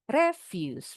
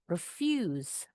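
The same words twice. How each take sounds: First: The stress is on the first syllable. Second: The stress is on the second syllable. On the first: It is a noun or adjective. "yang di sebelah kanan, penekanannya di suku kata pertama" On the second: It is the verb meaning to decline. "untuk kata yang ini penekanannya di suku kata kedua"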